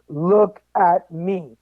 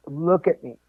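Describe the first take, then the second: First: Each word of "Look at me" drawn out and weighted; slow insistence. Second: Said in the usual way. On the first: Retold or imitated. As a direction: say "Look at me" very slowly, a firm retold command. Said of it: "And finally". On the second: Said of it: "And he's like".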